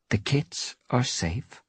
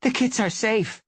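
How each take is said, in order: First: Slow, level, final statement; slow firm reassurance. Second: High, loud, relieved gasp of news; breathless relief. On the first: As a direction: lay it down as settled fact. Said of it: "her voice menacingly quiet". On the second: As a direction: announce the kits are fine, still panting. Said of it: "she meowed with a gasp". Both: A narrator's reading.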